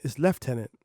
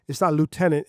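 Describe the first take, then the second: First: "lieutenant" said as LEF-tenant; Canadian pronunciation. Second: "lieutenant" said as LOO-tenant; American pronunciation. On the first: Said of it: "if you're in Canada". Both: Shown as a demonstration.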